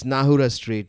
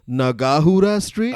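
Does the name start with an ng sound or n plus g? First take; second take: ng sound; n plus g. First: The name starts with ng as in singer. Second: The name starts with n and a separate g. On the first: The speaker calls it right. "N and G is pronounced like like it's there in singer" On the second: The speaker calls it wrong. "when they say Nagahura Street"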